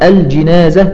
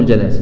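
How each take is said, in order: First: The first syllable has the vowel 'a'. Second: The first syllable has the vowel 'i'. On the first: It means the dead person. "والجنازة بالفتح هو الميت" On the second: It means the bier. "الجنازة بالكسر هي النعش"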